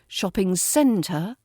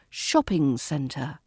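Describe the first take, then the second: First: The stress is on the second word, centre. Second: The stress is on the first word, shopping. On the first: The speaker calls it wrong. "just sounds wrong" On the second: The speaker calls it right. "the correct stress falls on the shop of shopping"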